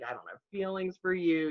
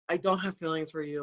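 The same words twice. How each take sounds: First: It is said gently and calmly. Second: It is said bluntly and harshly. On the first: "Like nicely, like more professional, more like low key" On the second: "Do you say it like that?"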